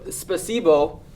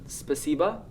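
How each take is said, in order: First: The final vowel sounds like a full 'o'. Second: The final vowel sounds like a reduced 'a'. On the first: "that's how uh, you write it" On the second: "as you pronounce it, it's mostly spasiba"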